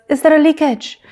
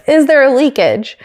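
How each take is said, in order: First: Higher-pitched imitated French accent; heavy French accent. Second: Said in the usual way. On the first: Imitating a racing driver on the radio, heavy French accent. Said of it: "sounding more French than ever before". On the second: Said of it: "do it in an American accent".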